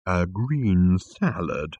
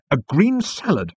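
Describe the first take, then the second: First: "green salad" slow and drawn out; "A green salad" stretched out disapprovingly. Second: "green salad" high, loud and firm; "A green salad" pitched up in emphatic defiance. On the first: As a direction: echo "green salad" with weary disdain. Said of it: "rolling his eyes disapprovingly". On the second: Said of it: "said Arthur emphatically". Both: Acted.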